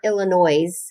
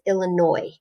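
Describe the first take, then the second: First: The final S sound is pronounced. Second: The final S sound is left silent. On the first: The speaker calls it wrong. "It's not Illinois" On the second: The speaker calls it right. "So we don't say the S at the end"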